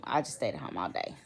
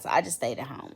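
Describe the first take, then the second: First: Softer, lower afterthought; quieter repeat. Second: Said in the usual way. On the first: Real, not acted. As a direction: drop the voice as you repeat it. Repeating herself, softer take.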